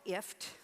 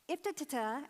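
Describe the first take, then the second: First: The name is said as one short syllable. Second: The name is said with several syllables. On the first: "They call it IFT, rhymes with lift" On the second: "neither one of those are how they pronounce it"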